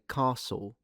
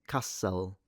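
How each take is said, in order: First: The ending is a dark l like w. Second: A soft schwa comes before the l. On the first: "I say castle ... a dark L ... It's like a W really" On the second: "and I don't say castle"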